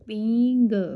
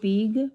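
First: The vowel is said through the nose. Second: The vowel is said without nasal sound. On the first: The speaker calls it right. "ਫਿਰ ਇਹ ਪੀਂਗ" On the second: The speaker calls it wrong. "ਜੇ ਉੱਪਰ ਬਿੰਦੀ ਨਾ ਹੁੰਦੀ ਪੀਗ"

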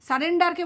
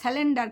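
First: The second consonant is an r sound. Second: The second consonant is an l sound. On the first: The speaker calls it right. "সারেন্ডারকে বলে" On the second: The speaker calls it wrong. "বলে স্যালেন্ডার"

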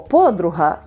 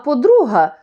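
First: The stress is on the first syllable. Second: The stress is on the second syllable. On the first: It means a female friend. "наша приятелька, товаришка" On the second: It means the second one, not the first. "що вже не перша, а подруга"

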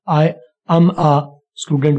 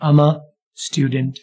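First: Each word is said separately and fully. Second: The first words blend into one sound, ama. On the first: The speaker calls it wrong. "मैं ये नहीं कह रहा कि ऐसा हो नहीं सकता, आई एम अ स्टूडेंट बोल सकते हैं" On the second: The speaker calls it right. "आई और एम को मिला के हमने किया अम, और आगे आ जो है उसको भी इसका हिस्सा बना दे"

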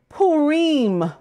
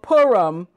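First: Purim is said in the Eastern traditional way. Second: Purim is said in the Western traditional way. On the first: This is how Eastern communities say it. "In Eastern tradition, it is called Purim" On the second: This is how Western communities say it. "Among Westerners, it is called Purim"

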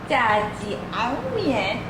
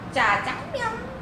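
First: The middle syllable is pronounced as 'jiang'. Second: The middle syllable is pronounced as 'jang'. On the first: This is how it is said in China. "중국식 발음으로 짜지앙면" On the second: This is how it is said in Korea. "우리나라에서는 짜장면 이렇게 부르게 됐대"

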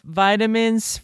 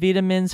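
First: It is said with an American pronunciation. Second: It is said with a British pronunciation. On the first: "For the Americans" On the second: "for the Brits"

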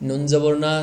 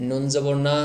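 No difference in how they are said.

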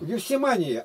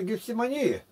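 First: The stress falls on the 'ма' syllable. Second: The stress falls on a syllable other than 'ма'. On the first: The speaker calls it right. "А. Ударение на А" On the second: The speaker calls it wrong. "Ты сейчас хотел читать Гефсимании? Ты еще рехнулся, что ли?"

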